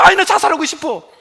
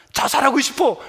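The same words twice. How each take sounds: First: Mock whining 아이, 나 자살하고 싶어 with a falling sigh on 아이; louder, half-hearted whine; whiny complaint. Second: Said in the usual way. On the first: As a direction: imitate someone moaning over a small hardship. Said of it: "조금만 힘들어". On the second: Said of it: "이런 말 가능하면 하지 마세요".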